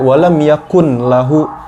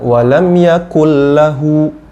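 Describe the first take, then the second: First: The n is held with a nasal hum. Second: The n merges into l without nasal hum. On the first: The speaker calls it wrong. "bukan juga walam yakun lahu" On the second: The speaker calls it right. "melainkan walam yakul lahu"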